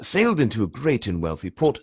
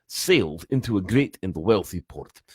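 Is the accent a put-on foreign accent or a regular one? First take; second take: regular; put-on. First: It is said in the speaker's regular accent. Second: It is said in a put-on Russian-Gaelic accent. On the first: "I'll sit back to the regular one" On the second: "drifting in and out between Russian and uh, well, um, some form of Scottish, Irish"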